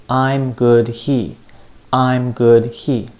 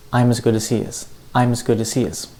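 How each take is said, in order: First: Slow, even beats on "I'm", "good", "he"; the beat only. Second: Quick, linked "I'm as good as he is" with reduced "as"; unstressed words faster. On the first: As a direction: tap out "I'm... good... he" slowly, equal weight. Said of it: "the beat was". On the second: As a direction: keep the beat on "I'm", "good", "he", squeeze "as" and "is". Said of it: "say the unstressed words a lot faster". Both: Shown as a demonstration.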